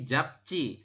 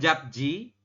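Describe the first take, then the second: First: The consonant after p is a tensed c. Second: The consonant after p is a plain j. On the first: The speaker calls it right. "tapi japci seperti itu" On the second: The speaker calls it wrong. "Bukan japji"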